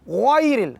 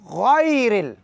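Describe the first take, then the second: First: The first vowel is said with rounded lips. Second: The first vowel is said with an open mouth. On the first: The speaker calls it wrong. "तो ये गाय पढ़ना सरासर गलत है" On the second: The speaker calls it right. "मुंह खुल जाए हरकत के दौरान"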